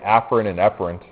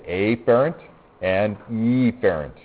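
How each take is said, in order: First: The words are said in their natural everyday form. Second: The words are altered to sound more distinct. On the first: This is how the terms are said in real life. The speaker calls it right. "when you really say that in real life, you say" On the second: The terms are made easier to tell apart. The speaker calls it wrong. "I usually mispronounce it a little bit so that it's easier for you to understand me"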